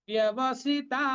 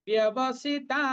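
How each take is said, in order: No difference in how they are said.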